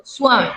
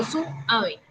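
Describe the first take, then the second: First: "suave" said smoothly as SWA-ve; diphthong joined. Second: "suave" broken as su, A-ve; split diphthong. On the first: Teacher correcting to the usual form, diphthong joined. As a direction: keep u and a together in "suave". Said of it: "digo suave". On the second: Teacher showing what she doesn't say, vowels split. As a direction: put a break after the u in "suave". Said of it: "yo no digo". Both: Shown as a demonstration.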